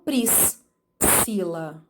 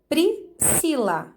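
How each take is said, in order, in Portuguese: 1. O 's' e o 'c' são pronunciados separadamente. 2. O 'sc' é pronunciado como um único som de s. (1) "e não" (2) "falamos corretamente"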